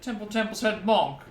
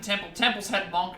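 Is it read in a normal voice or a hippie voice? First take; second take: hippie voice; normal voice. First: It is said in a put-on hippie voice. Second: It is read in a plain, normal voice.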